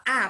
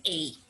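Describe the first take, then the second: First: "a" said as an open Portuguese "ah"; open "ah" sound. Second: "a" said as the diphthong "ay"; "ay" letter sound. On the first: Teacher reading the article to pupils, "a" as open "ah". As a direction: say the article "a" like the vowel in "father". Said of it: "quando eu tô lendo eu falo a". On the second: Teacher giving pupils the alternative, "a" pronounced "ay". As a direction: say the article "a" like the English letter name. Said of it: "mas poderia ser a". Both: Shown as a demonstration.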